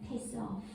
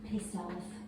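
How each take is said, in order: First: It is said in a flirtatious tone. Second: It is said in a neutral tone.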